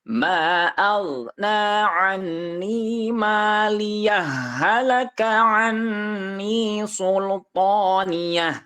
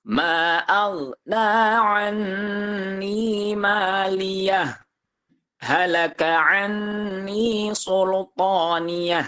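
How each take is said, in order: First: 'Maliyah' runs straight into 'halaka', the sounds merging. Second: A brief stop follows 'maliyah', with no breath. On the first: "Kalau misalkan di wasol, maka harus diidghamkan" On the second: "itu di sakta"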